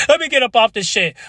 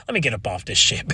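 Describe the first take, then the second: First: High burst. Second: Said in the usual way. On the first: Real, not acted. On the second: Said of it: "I sound like C-Jack now".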